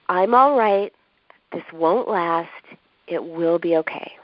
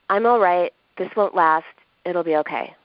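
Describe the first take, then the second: First: It is said in a warm, soothing tone. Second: It is said in a flat, cold tone. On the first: It feels like a verbal hug. The speaker calls it right. "in a comforting tone" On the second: It is not comforting. The speaker calls it wrong. "kind of a flat, cold tone"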